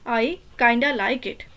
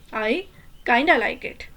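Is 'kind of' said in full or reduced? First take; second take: reduced; reduced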